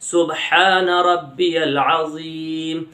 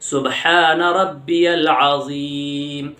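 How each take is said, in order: Both takes have the same delivery.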